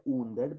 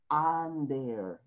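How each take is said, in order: First: Under read as spelled, "undeɾ" with an oo sound. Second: Under with an open "a", "ander"; English under. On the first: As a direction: say "under" like the Spanish u, oo-nder. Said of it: "se escribe under". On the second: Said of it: "pero pronunciamos". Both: Shown as a demonstration.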